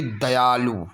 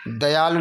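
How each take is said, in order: First: दयालु with a held loo; long final oo. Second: दयालु with a brief lu; short final u. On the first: Teacher giving the second form, दयालु with long loo. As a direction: stretch the end of दयालु. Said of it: "बड़ा ऊ की मात्रा". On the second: Teacher showing the first form, दयालु with short lu. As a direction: clip the end of दयालु. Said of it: "नहीं होगा". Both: Shown as a demonstration.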